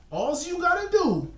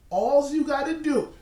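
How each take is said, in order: First: Much higher cartoon baby voice; a cartoon baby's high voice, fully put on; Tommy Pickles voice. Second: Said in the usual way. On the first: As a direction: pitch it up like a bossy cartoon toddler. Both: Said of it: "in my Tommy Pickles voice".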